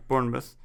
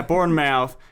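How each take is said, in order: First: Bournemouth with a reduced last syllable, "BORN-muth"; English pronunciation. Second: Bournemouth ending in a full "mouth"; American pronunciation. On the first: Co-host confirms how the English say it, English pronunciation. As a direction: say Bournemouth softly, ending in a short "muth". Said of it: "said that with an English accent". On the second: Co-host echoes the American reading of the town, American pronunciation. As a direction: say Bournemouth as "born-mouth", both parts clear. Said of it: "pronouncing it with an American accent". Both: Shown as a demonstration.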